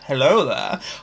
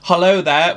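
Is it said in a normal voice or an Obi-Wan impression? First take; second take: Obi-Wan impression; normal. First: It is said in an Obi-Wan Kenobi impression. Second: It is said in the speaker's normal voice.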